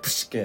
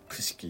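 First: The word ends with an 'eh' vowel. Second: The word ends with an 'ee' vowel. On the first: This is the commonly known pronunciation. "一般的にはプシケっていうふうな発音の方がね、通りはいい" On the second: This is the modern Greek pronunciation. "現代式のギリシア語の、その発音ではプシキと言います"

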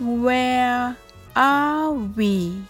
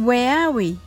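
First: It is said slowly. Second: It is said fast.

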